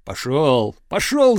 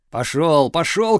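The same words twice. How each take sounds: First: Shout. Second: Shouting. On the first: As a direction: slam the door on him. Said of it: "закричал кузнец". (кузнец кричит и захлопывает дверь) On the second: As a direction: drive him off, shoving. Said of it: "кричал кузнец". (кузнец гонит Чуба: пошёл, пошёл) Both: A narrator's reading.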